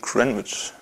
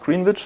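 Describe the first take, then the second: First: The name is said with its English pronunciation. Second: The name is read out as it is spelled. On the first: The speaker calls it right. "sondern irgendwie Greenwich" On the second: The speaker calls it wrong. "das heißt nicht Greenwich"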